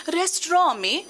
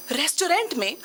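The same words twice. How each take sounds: First: "रेस्टोरेंट" said as "restraw", final "-ent" dropped; self-corrected pronunciation. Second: Said in the usual way. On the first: Acted. Woman apologises and corrects herself, "रेस्टोरेंट" pronounced "restro". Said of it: "माफ कीजिएगा".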